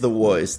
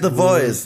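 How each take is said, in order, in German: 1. Voice beginnt mit einem w-Laut. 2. Voice beginnt mit einem v-Laut. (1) "nicht The Voice" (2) "Es heißt The Voice"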